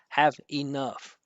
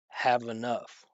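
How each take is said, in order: First: Each word is pronounced separately, with a break. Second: The final v links smoothly into the next word. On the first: The speaker calls it wrong. "he pronounced each word individually" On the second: The speaker calls it right. "we move this over and it turns into vnuff"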